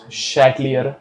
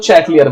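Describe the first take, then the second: First: शैटलियर said the French way, soft sh and no final s; careful French शैटलियर, quiet and low; French pronunciation. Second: चैटलियर with a hard ch, laughing, in the Indian way; cheerful desi चैटलियर with a laugh; Indian pronunciation. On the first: Teacher showing the class the proper French शैटलियर. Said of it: "इसका pronunciation actually होता है". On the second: Teacher joking to students that Indians say चैटलियर. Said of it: "हम लोग Indian है, हम लोग चैटलियर बोलेंगे". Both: Shown as a demonstration.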